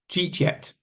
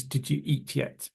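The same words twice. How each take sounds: First: "Jeet yet" in two quick syllables; "Jeet" standing in for did you eat; mashed together. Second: "Did you eat yet" with every word present; softer, uncondensed "Did you eat yet"; full form. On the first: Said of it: "a mixture of did and you". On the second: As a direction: keep "Did you" as two words. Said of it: "That actually means". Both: Shown as a demonstration.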